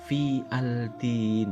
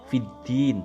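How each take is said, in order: First: The l of al is clearly pronounced before d. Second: The l is silent, merging into a doubled d. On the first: The speaker calls it wrong. "tidak boleh dibaca" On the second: The speaker calls it right. "alnya tidak tampak langsung ketemu huruf dal"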